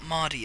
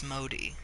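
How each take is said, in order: First: The first vowel sounds like 'aw'. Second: The first vowel sounds like long 'oh'. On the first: The speaker calls it wrong. "It's not Maudie" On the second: The speaker calls it right. "it's Modi"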